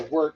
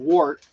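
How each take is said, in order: First: "wort" said like "wert"; "wort" rhyming with hurt; alternate pronunciation. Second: "wort" said with an OR vowel; "wort" rhyming with short; pronounced as spelled. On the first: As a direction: say "wort" as if spelled W E R T. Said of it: "like W E R T". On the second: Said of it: "depending on how you wanna pronounce it". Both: Shown as a demonstration.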